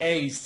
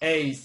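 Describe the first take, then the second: Both takes have the same delivery.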